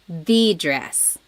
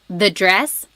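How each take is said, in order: First: The word 'the' is said with strong emphasis. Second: The word 'the' is said plainly, without emphasis. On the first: It refers to that particular dress. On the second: It refers to a dress in general.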